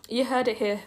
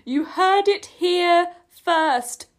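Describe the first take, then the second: First: Said in the usual way. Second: High, loud, very slow proclamation; emphatic announcement. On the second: Real, not acted. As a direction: spell it out grandly, word by word. Finally gets phrase out, emphatically.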